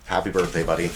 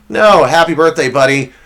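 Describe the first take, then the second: First: Soft, lower heartfelt wish; sincere birthday wish. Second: Louder, punchy roast-style birthday wish; mock roast greeting. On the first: Real, not acted. Host wishing his best friend happy birthday, soft and sincere. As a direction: say it gently, meaning it. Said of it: "All jokes aside". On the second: Host roasting producer on his birthday, loud punchy greeting. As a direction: bark the birthday wish as part of the burn.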